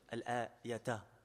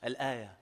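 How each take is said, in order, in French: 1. Le mot se termine par une syllabe « ta » bien prononcée. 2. Le mot se termine sans syllabe finale « ta ».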